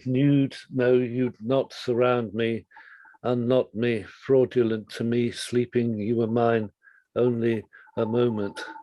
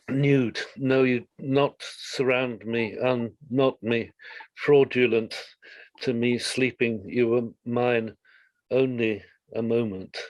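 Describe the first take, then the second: First: It is read in a smooth, flowing way. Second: It is read in a choppy, jarring way.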